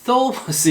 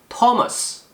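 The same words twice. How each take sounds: First: It begins with a tongue-between-teeth 'th' sound. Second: It begins with a plain 't' sound. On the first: The speaker calls it wrong. "이렇게 발음하지 마시고" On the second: The speaker calls it right. "그냥 T 발음이 납니다"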